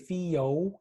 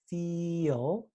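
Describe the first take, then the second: First: An extra 'o' vowel comes before the L. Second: No extra vowel comes before the L. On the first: The speaker calls it wrong. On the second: The speaker calls it right.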